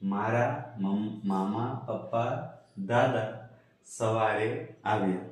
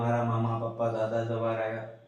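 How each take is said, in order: First: Short pauses separate each relative in the list. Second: The words run together without pauses between them. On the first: Several separate relatives came in the morning. The speaker calls it right. "હવે વંચાય કે" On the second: The sentence makes no sense. The speaker calls it wrong. "આવી રીતના વાંચવું પડે અને આવી રીતના વાંચીએ તો એનો કોઈ અર્થ થવાનો નથી"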